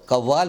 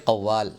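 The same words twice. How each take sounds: First: "कव्वाल" with plain front k; everyday k in "कव्वाल"; wrong pronunciation. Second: "कव्वाल" with throaty q; careful Urdu "कव्वाल", back q; correct pronunciation. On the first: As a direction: say "कव्वाल" as kavvaal. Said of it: "बोलना गलत है". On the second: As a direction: say "कव्वाल" as qavvaal. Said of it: "इसको बोलना चाहिए". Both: Shown as a demonstration.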